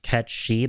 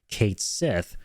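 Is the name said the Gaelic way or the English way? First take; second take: Gaelic; English. First: The name is said with a Scottish Gaelic pronunciation. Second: The name is said with an English-style pronunciation. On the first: "because of the Scottish Gaelic pronunciation" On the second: "Square Enix themselves came out and said that it's actually going to be pronounced Kate Sith"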